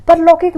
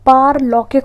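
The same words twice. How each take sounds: First: परलौकिक with a short first 'par'; wrong pronunciation. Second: पारलौकिक with a long opening 'paar'; correct pronunciation. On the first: Teacher showing students the wrong form, short first vowel in परलौकिक. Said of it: "परलौकिक नहीं होता है". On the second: Teacher correcting students, long 'paa' in पारलौकिक. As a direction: stretch the first vowel of पारलौकिक. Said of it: "पारलौकिक होता है". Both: Shown as a demonstration.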